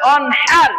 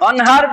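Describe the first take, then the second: First: The h sound is harsh, from the throat. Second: The h sound is a light, plain breath. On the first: It means offer sacrifice. The speaker calls it right. "বলতে হবে অনহার" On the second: It means day, which reverses the sense. The speaker calls it wrong. "অনহার বললে গুনাহ হবে"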